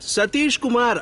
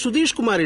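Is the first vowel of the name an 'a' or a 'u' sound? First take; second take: a; u. First: The name's first vowel is an 'a' sound. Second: The name's first vowel is a 'u' sound. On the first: The speaker calls it right. "அதான் என் பேரு" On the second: The speaker calls it wrong. "என் பேரு சுதீஷ் குமார் இல்ல"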